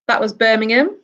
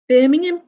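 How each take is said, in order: First: Said in the usual way. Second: A playful Brummie twang on Birmingham; mock Brummie accent. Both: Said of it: "I hope I haven't offended any Brummies".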